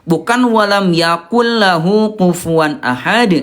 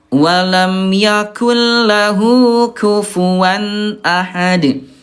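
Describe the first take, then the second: First: The k in kufuwan is deep and heavy. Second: The k in kufuwan is light and thin. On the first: The speaker calls it wrong. "bukan pakai kof" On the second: The speaker calls it right. "yang betul pakai kaf. Walam yakul tipis ya"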